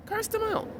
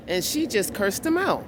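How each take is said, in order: First: Jumps much higher and softer in disbelief; incredulous repeat. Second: Said in the usual way. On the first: Retold or imitated. Telling viewers again how she cursed the man, incredulous. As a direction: echo it in high, soft amazement.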